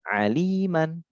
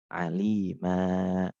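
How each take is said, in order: First: The word ends with a short vowel plus n. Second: The word ends with a long vowel, no n. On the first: The reader continues without stopping. "fathah tanwin" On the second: The reader stops at this word. "Fathah tanwin diganti fathah panjang"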